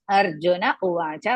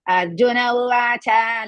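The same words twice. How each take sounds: First: The final vowel of uvacha is kept short. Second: The final vowel of uvacha is drawn out long. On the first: The speaker calls it right. "because cha is Hrasva" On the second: The speaker calls it wrong. "Don't pronounce Arjuna Uvacha like that"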